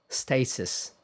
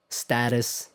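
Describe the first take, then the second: First: Status with "ay" in the first syllable; British pronunciation. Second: Status with a short "a" as in cat; American pronunciation. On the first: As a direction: say status as "STAY-tus". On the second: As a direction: say status as "STAT-us". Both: Shown as a demonstration.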